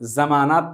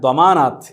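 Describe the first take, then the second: First: The word begins with a j-like sound. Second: The word begins with a d-like sound.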